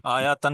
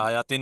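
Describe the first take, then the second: First: आयातन said with a final -tan, the wrong ending; wrong form. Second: आयातिन said with a final -tin, the correct ending; corrected form. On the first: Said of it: "यहाँ मैं गलती कर रहा हूँ". (आयातन, -तन वाला गलत उच्चारण) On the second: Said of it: "आयातन नहीं होता". (आयातिन, -तिन वाला सही उच्चारण) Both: Shown as a demonstration.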